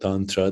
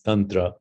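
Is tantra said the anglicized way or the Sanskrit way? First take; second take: anglicized; Sanskrit. First: It is said with a common anglicized pronunciation. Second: It is said with a Sanskrit-style pronunciation. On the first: The speaker calls it wrong. "what people call tantra" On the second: The speaker calls it right. "the correct pronunciation is tantra"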